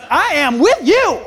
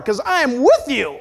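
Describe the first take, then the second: First: High, loud, drawn-out soulful voice; soul-like God. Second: Higher, insistent reassurance; God's firm assurance. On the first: God reassuring the pastor with soul, big and slow. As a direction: belt it slowly as a soulful God. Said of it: "he sounds a little bit more soul-like". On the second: God assuring the doubting pastor he is there, firm. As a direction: drive the promise home firmly as God. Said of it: "That's how he talks to me". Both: Acted.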